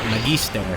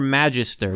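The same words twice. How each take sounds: First: The word is pronounced in a Latin style. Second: The word is pronounced in an English style. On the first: This is the classical form meaning teacher. "the Latin pronunciation, which would be like Magister" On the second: This is how the characters name her. "they call her Magister"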